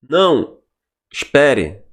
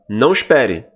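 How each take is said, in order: First: There is a pause after 'não'. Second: There is no pause after 'não'.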